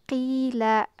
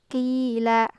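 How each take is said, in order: Both takes have the same delivery.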